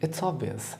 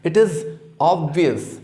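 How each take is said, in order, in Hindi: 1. 'It is' संकुचित होकर एक छोटे अक्षर की तरह बोला जाता है। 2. 'It is' दो अलग-अलग पूरे शब्दों की तरह बोला जाता है।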